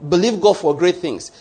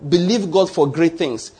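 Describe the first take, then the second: First: Said in the usual way. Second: Slow emphatic. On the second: Shown as a demonstration. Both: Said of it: "Let me say it again".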